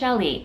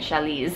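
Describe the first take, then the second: First: The word ends with a vowel sound. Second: The word ends with an s sound. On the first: The speaker calls it right. "So it is chali" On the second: The speaker calls it wrong. "last week I was calling it chalis"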